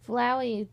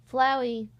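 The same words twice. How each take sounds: The two takes are said the same way.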